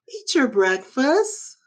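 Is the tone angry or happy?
happy. It is said in a happy tone.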